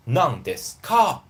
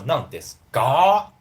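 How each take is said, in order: First: "Nan desu ka?" said slowly, with a pushed, rising "ka"; stressed ka. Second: "Nan desu ga?" with "ka" voiced as "ga". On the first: Teacher shows the pushy version learners should avoid. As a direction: lean on the "ka" too much. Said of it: "you don't need to stress this". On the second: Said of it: "You don't need to do that". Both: Shown as a demonstration.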